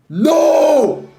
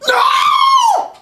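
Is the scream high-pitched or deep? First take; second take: deep; high-pitched. First: It is a deeper, lower-pitched scream. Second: It is a high-pitched, girlish scream.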